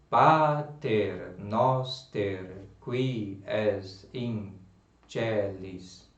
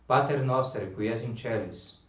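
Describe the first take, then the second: First: The words are slow, separate and mechanical. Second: The words are quick and run together. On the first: It does not sound fluent. The speaker calls it wrong. "você não vai dizer assim" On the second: It sounds fluent. The speaker calls it right. "Você vai dizer tudo junto"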